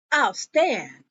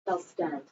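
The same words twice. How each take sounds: First: Said in the usual way. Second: Low, very soft repeat; hushed, lower echo of a refusal; quiet echo. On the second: Retold or imitated. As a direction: drop it to a near-murmur.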